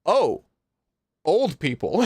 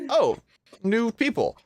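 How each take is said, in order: First: Lightly acted double take; a raised "oh" of realization; startled recognition. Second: High, pleasantly surprised greeting; raised-pitch "oh" of discovery; mild surprise. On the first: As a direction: recognize someone, pitch raised, laugh creeping in. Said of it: "when he sees Kiulana". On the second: Acted. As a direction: notice strangers with a lifted voice. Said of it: "it takes a second where he looks".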